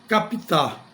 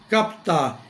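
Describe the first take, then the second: First: An extra i vowel separates the p and t. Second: The p and t join with no vowel between. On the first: The speaker calls it wrong. "e não captar" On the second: The speaker calls it right. "pronuncie captar"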